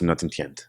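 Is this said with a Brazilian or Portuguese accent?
Portuguese. It is said in a plain Portuguese accent. "in Portuguese it's"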